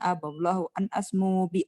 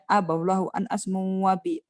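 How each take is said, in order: First: The word asmu ends without an added vowel. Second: The word asmu ends with an added 'a' vowel. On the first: The speaker calls it right. "Kan nadanya gini" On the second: The speaker calls it wrong. "jadi enggak pas"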